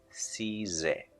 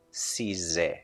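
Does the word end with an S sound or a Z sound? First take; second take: Z; Z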